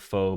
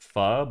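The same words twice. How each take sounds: First: The word is said the English way. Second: The word is said the Vietnamese way. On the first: This avoids sounding like trying too hard. "I'll say pho because I don't want to sound try hard" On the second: This is the authentic pronunciation. "I think it's supposed to be pho"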